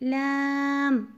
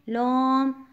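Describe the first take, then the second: First: The letter is said thin and light. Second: The letter is said heavy, with a full voice. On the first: The speaker calls it right. "आवाज़ बारीक होगी।" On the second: The speaker calls it wrong. "लाम को मोटा नहीं पढ़ना।"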